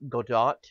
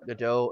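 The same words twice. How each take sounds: First: The final T sound is clearly pronounced. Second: The final T sound is silent. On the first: The speaker calls it right. "Like you're supposed to pronounce the T" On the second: The speaker calls it wrong. "apparently it is not Godot"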